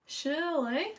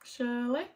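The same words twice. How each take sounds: First: Drawn-out questioning accented Shirley, higher; accidental accent. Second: Said in the usual way. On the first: Real, not acted. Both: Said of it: "I did the accent thing again".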